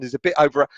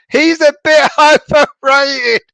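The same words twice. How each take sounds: First: Said in the usual way. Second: Reading "He's a bit overrated." slowly while breaking into high laughter; can't get the word "overrated" out for laughing, voice jumping up; cracking up mid-line at the word "overrated". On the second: Real, not acted. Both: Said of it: "thank you for making me laugh".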